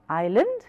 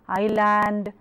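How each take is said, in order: First: The final syllable is said short and reduced. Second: The final syllable is said long and full. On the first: The speaker calls it right. "So learn to reduce that sound" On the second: The speaker calls it wrong. "Usually Indian speakers make a great blunder here"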